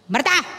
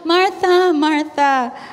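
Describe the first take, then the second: First: It is said sharply, in an angry tone. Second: It is said softly, in a gentle tone.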